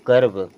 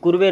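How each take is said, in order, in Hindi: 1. पहला स्वर 'er' है, जो v पर खत्म होता है। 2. पहला स्वर 'oo' है, और अंत में एक स्वर है। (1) "बल्कि क्या पढ़ेंगे?" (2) "इसे भी कुर्वे नहीं पढ़ेंगे"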